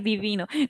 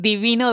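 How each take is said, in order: First: It is said in a gushing, admiring tone. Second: It is said in a plain, neutral tone. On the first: Something is lovely or gorgeous. The speaker calls it wrong. "pero no así como, ay" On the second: Something relates to gods. The speaker calls it right. "divino de divinidad"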